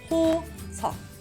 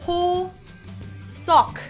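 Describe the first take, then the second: First: The final k is held without an audible release. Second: The final k is released with an audible burst. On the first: The speaker calls it right. "Don't pronounce the supporting consonant" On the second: The speaker calls it wrong. "notice this little k that comes out"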